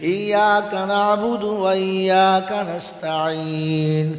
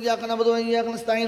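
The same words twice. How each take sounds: First: It is recited slowly and carefully. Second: It is recited very fast and rushed. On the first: It is read with understanding. The speaker calls it right. "আস্তে আস্তে বুঝে বুঝে" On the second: It is read through without being understood. The speaker calls it wrong. "এটা হলো খতম করা।"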